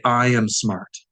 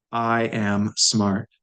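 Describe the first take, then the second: First: Said in the usual way. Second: I am smart said slowly, word by word; slow, careful. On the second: Shown as a demonstration. Teacher models the phrase for students, slowly. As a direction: spell it out slowly for learners. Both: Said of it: "now we wanna say".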